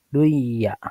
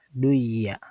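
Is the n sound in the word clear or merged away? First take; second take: merged; merged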